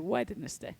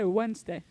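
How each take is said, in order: First: Each letter is sounded out, including the d. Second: The sounds are blended together and the d is dropped. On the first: The speaker calls it right. "it's actually Wednesday" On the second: The speaker calls it wrong. "most people say Wednesday"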